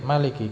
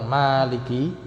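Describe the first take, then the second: First: The first vowel is kept short. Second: The first vowel is held long. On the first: An intensive form with a stronger meaning. "Maliki pendek" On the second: An ordinary active participle: one who owns. "ininya panjang"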